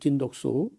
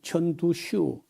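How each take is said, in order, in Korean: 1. 이 이름은 한국 한자 음으로 읽어요. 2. 이 이름은 중국어 발음으로 읽어요. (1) "우리 한자를 우리 우리 뭐 읽기로 하면요" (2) "중국 발음은"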